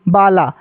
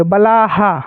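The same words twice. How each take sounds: First: Said in the usual way. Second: "बलाहा" with an added long haa; visarga echoing vowel. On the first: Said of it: "इसको बाला नहीं पढ़ेंगे". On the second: Shown as a demonstration. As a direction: close "बलाहा" on an aspirated haa. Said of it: "तो इसको बाला नहीं पढ़ेंगे". ("बलाहा" के अंत में हा)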